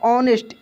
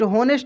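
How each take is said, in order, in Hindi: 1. शब्द स्वर से शुरू होता है, h साइलेंट है। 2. शब्द की शुरुआत में h सुनाई देता है। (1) "एच साइलेंट रहेगा" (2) "होनेस्ट नहीं पढ़ेंगे"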